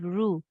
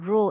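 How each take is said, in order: First: The vowel is said with lips fully rounded. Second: The vowel is said with lips only partly rounded. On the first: The speaker calls it right. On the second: The speaker calls it wrong.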